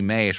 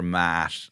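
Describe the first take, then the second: First: The vowel is an ay sound. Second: The vowel is a short open ah sound. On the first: "used to be mate" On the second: "or mat"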